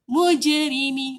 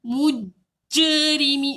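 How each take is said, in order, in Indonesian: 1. Pantulan 'j' ringan dan cepat. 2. Pantulan 'j' berat dan susah. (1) "cepat, tak tersangkut" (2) "berat macam susah sangat nak lantun tu tak nak"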